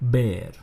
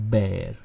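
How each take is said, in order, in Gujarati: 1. સ્વર 'hair' ના સ્વર જેવો સંભળાય છે. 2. સ્વર 'hair' ના સ્વર જેવો સંભળાય છે.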